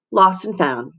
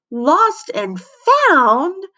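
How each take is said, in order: First: Said in the usual way. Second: High, rising shriek of alarm. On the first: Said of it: "said Mister Jupiter". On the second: A narrator's reading. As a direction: shriek the last word way up. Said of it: "shrieked Missy".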